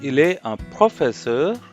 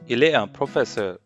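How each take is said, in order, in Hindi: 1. अंत में आवाज़ ऊपर जाती है, जैसे प्रश्न में। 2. अंत में आवाज़ नीचे जाती है, जैसे सामान्य वाक्य में। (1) "ये क्वेश्चन इंटोनेशन होती है" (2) "अब मेरी मैं नॉर्मली बोल रहा हूँ"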